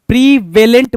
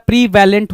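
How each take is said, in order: First: प्रीवेलेंट read out as the misspelling "prevelent"; misspelt pronunciation. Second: प्रीवेलेंट as in the spelling "prevalent"; correct pronunciation. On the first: Teacher reads the question's misspelt word, प्रीवेलेंट as "pre-VEL-ent". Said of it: "प्रीवेलेंट बोल रहा है". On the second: Teacher gives students the proper word, प्रीवेलेंट as "pre-VAL-ent". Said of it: "प्रीवेलेंट होता है". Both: Shown as a demonstration.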